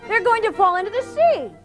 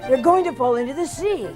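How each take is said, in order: First: The voice sounds younger, more childlike. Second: The voice sounds older, less childlike.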